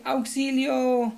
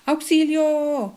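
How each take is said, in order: First: Auxilio drawn out slowly, a bit higher; exclaimed long. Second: Loud, drawn-out cry for help, high; exclaimed long. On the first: Teacher repeating the example, drawn-out auxilio. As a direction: stretch out auxilio. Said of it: "varios signos de exclamación". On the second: Teacher showing an exclamation, drawn-out auxilio. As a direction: stretch out auxilio, slow and loud. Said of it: "Veamos unos ejemplos". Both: Shown as a demonstration.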